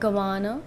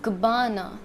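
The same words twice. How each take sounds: First: The middle syllable is not stressed. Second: The middle syllable is stressed. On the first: The speaker calls it wrong. "It's not Gabbana" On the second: The speaker calls it right. "It has emphasis more on B"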